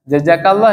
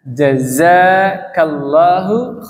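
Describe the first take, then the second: First: The second consonant is a j sound. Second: The second consonant is a z sound. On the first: The speaker calls it wrong. "Jangan jaja Pak ya. ... Itu mah orang Indonesia" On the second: The speaker calls it right. "Pakai jim dulu baru pakai za"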